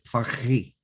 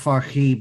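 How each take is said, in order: First: The h is a heavy, throaty sound. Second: The h is a light, plain breath. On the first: The speaker calls it right. "but Farhi" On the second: The speaker calls it wrong. "So not Farhi"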